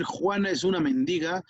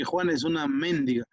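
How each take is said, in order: First: Mendiga stressed on DI; men-DI-ga, middle syllable stressed. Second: Mendiga stressed on MEN, as méndiga; MEN-di-ga, first syllable stressed. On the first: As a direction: say mendiga with the weight on the second syllable. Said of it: "Así no es lo mismo decir". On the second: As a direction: say mendiga with the weight up front. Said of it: "no es lo mismo". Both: Shown as a demonstration.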